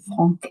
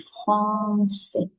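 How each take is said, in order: First: The middle consonant is a hard K sound. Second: The middle consonant is a soft S sound. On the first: The speaker calls it wrong. "On ne dit pas euh, franc. C'est pas correct" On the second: The speaker calls it right. "C'est français. Parce qu'il y a ici un petit S en dessous"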